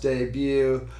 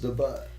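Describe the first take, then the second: First: The word ends in a 'byoo' sound, no t. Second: The word ends in a 'butt' sound, with t. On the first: "I do know it's pronounced debut" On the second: "it should be pronounced the butt"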